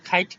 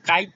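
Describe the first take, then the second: First: The first k is aspirated. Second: The first k is unaspirated. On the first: The speaker calls it right. "খাইট বলে ফেলবে" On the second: The speaker calls it wrong. "কাইট না বলে"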